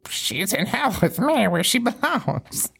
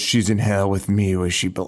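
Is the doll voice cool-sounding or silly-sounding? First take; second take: silly-sounding; cool-sounding. First: It is said in a silly-sounding voice. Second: It is said in a cool-sounding voice.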